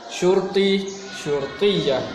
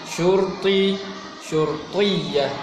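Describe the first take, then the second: No difference in how they are said.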